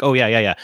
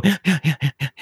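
First: Said in the usual way. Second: "Yeah, yeah, yeah" said on an in-breath; inhaled yeses. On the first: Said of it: "they wanna be like". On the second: Shown as a demonstration. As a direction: breathe in while saying "yeah". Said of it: "they breathe in their yeses".

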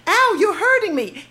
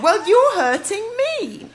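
First: Lightly imitated Canadian accent, higher pitched; cute Canadian accent. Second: Higher, slow stress on "hurting me"; pointed retort. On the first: Teen diarist quoting her Canadian crush, cute Canadian accent. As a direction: mimic a cute Canadian boy's complaint. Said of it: "in a very cute accent". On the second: Retold or imitated. Diarist answering back the boy she bit, pointed retort. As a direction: throw it back, "you're hurting me" drawn out high. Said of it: "So I said".

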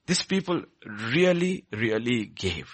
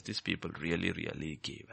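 First: Slow, ringing "really, really gave"; emphatic proclaiming. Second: Quiet, lower repeat of "really, really gave"; hushed echo. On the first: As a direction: proclaim it, leaning hard on each "really". Repeated line, first take loud. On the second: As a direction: drop to a soft, low "really, really gave". Same line repeated much softer. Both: Shown as a demonstration.

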